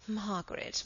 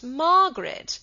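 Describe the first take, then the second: First: Hushed reproach. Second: High, loud exclamation of the name; loud rebuke. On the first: Henry cautions his defiant wife, hushed. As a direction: say the name softly, as a first warning. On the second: Henry rebukes his defiant wife, loudly. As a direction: cut in with a sharp rise in volume. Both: A narrator's reading.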